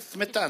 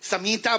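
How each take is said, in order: First: The first two consonants are said together as a cluster. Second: A vowel is inserted between the first two consonants. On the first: This is the correct form the Urdu speaker cannot say. The speaker calls it right. "स्मिता नहीं कह सकता" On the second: This is how an Urdu speaker mispronounces it. The speaker calls it wrong. "Urdu बोलने वाला ... समीता बोलता है"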